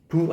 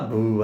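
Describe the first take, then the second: First: The consonant is a voiceless burst without vibration. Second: The consonant is voiced with vocal vibration. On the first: "앞에 소리는 부 하고 터졌다가" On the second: "무 할 때 울려주지"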